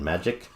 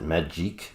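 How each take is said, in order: First: The name sounds like the ordinary word magic. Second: The name ends with a long 'eek' sound. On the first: This is what the name is thought to be now. The speaker calls it right. "I think it's Ileana, uh, Ileana and Magic" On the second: This is how it was said for many years. The speaker calls it wrong. "I would pronounce it Magique"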